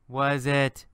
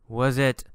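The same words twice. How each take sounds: The two takes are said the same way.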